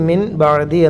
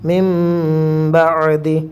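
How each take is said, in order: First: A clear n is heard before the b. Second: An m is heard before the b. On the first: "എഴുതിയത്" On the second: "നൂനിനെ മീമാക്കി"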